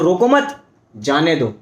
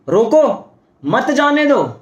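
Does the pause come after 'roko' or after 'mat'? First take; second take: after mat; after roko. First: The pause comes after the word 'mat'. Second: The pause comes after the word 'roko'. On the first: "रोको मत उसको, जाने दो।" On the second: "अर्थ बदल गया। एक comma का लगा"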